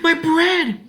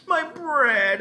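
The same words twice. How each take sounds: First: High, loud panicked shriek. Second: Desperate scream. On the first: Ellen seeing her bread slip, panicked shriek. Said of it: "she shrieked". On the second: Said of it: "Ellen screamed". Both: A narrator's reading.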